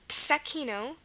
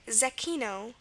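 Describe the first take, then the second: First: The word begins with a ts sound. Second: The word begins with a z sound. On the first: "also pronounced tsechino with a T S sound at the beginning" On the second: "it could be a Z, like zecchino"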